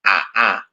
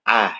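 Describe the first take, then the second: First: Both glottal stops are fully pronounced. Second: The second glottal stop is softened, half-pronounced. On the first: "ketika hamzahnya dibaca fathah" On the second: "bacaannya tasjil"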